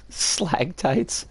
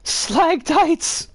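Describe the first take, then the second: First: Said in the usual way. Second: Squeaky high exclamation; pitched way up and playful; high silly voice. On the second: Pretend. Silly mock cry of phrase.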